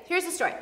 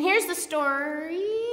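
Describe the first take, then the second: First: Said in the usual way. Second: Slow, stretched "story" rising at the end; drawn-out lead-in. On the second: Real, not acted. Preacher stalling before the Bible passage, "story" drawn out and rising. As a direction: stretch out "story" and leave it hanging upward.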